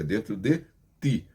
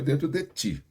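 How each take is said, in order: First: The word ti starts with a plain t. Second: The word ti starts with a ch sound. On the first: The speaker calls it right. "É dentro de ti" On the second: The speaker calls it wrong. "Não é dentro de ti. vão achar que você está falando C H I"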